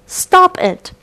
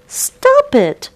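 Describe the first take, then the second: First: Shouted. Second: Very high, shrill-pitched shout. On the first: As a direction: cry out to make him stop. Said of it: "shouted the Beaver". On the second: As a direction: yell it out in alarm. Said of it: "shouted the Muskrat". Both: Acted.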